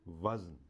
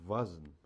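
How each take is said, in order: The two takes are said the same way.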